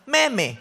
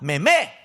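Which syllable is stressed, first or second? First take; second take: first; second. First: The stress is on the first syllable. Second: The stress is on the second syllable. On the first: The speaker calls it wrong. "ginagawa ko kasi meme, hindi" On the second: The speaker calls it right. "sa pangalawang me ang ang ang, ang stress"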